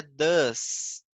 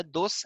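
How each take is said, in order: First: "does" with an open uh vowel, slow and firm; "does" stretched out, uh sound instead of o; correct DOES. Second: "dos" with a plain o vowel, the wrong way; the mistaken "dos", vowel as written. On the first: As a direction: model "does" as duhz, louder. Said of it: "é does". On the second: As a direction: say "dos" as spelled, like a learner's slip. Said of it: "Não é dos". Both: Shown as a demonstration.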